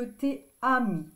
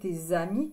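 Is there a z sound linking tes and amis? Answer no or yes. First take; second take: no; yes. First: No z sound links the two words. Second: A z sound links the two words. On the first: The speaker calls it wrong. "que tes amis" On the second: The speaker calls it right. "C'est plus joli de dire tes amis"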